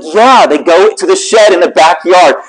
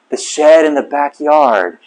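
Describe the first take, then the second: First: Higher, slow, imitating an insistent wife; exasperated confirmation. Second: Slow, understated disbelieving echo; stunned disbelief. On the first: Wife confirming to husband, slow exasperated insistence. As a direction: spell it out slowly in a raised pitch. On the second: Retold or imitated. Husband realizing his mistake to wife, slow stunned question. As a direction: repeat it slowly as it sinks in.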